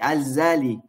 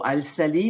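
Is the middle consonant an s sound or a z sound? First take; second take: z sound; s sound. First: The consonant after Al is a z sound. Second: The consonant after Al is an s sound. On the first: The speaker calls it right. "mais ça se dit Al-Zali" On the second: The speaker calls it wrong. "Ça ne se dit pas Al-Sali"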